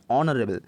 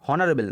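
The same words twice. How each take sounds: First: অনারেবল starting straight on the vowel, "onarebel"; lower-pitched teaching demo of অনারেবল without H; silent H. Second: অনারেবল with an H pronounced at the front, "honarebel"; অনারেবল as a counter-example, opening with H; wrongly sounded H. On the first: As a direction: leave the H out of অনারেবল. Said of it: "ভাওয়েলের উচ্চারণ হচ্ছে". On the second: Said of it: "নয়". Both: Shown as a demonstration.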